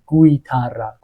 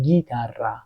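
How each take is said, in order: First: A w sound follows the g. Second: No w sound follows the g. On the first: The speaker calls it wrong. "نگفتیم گویتارا" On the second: The speaker calls it right. "گفتیم گیتارا"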